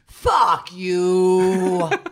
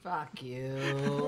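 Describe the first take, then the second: First: It is said with growl and gusto. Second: It is said plainly, without much force.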